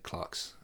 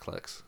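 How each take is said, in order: First: The word is said the British way. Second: The word is said the American way. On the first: "in Britain you probably should say Clerks" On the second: "because we're so Americanized these days, I know it's Clerks"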